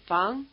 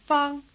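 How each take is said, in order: First: Fang climbing in pitch; rising tone. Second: Fang held high and level. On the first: Teacher introduces the second surname, rising tone. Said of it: "the rising tone surname". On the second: Teacher introduces the first surname, high tone. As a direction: say Fang on one high note. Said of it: "the high tone surname". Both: Shown as a demonstration.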